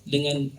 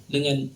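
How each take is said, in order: The two takes are said the same way.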